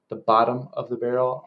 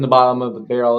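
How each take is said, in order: First: Each word of the phrase is pronounced clearly. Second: The phrase is slurred and run together. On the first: The speaker calls it right. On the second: The speaker calls it wrong.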